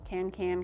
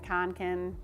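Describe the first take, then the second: First: The first syllable has the vowel of 'can'. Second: The first syllable has the vowel of 'con'. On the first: The speaker calls it wrong. "I've been saying it wrong this whole video" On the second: The speaker calls it right. "it's probably Conkin"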